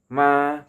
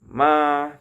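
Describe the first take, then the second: Both takes have the same delivery.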